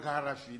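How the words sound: The name is said with Arabic sounds. This is how the man himself says it. The speaker calls it right. "Il prononce Kadhafi"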